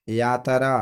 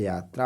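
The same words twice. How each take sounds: First: यात्रा said in three beats, "yaa-ta-raa"; split tr cluster. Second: Said in the usual way. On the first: Shown as a demonstration. Teacher showing a common error, यात्रा said as "yaataraa". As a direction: add a vowel inside यात्रा: yaataraa. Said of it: "ये गलत है". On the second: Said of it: "यात्रा होता है".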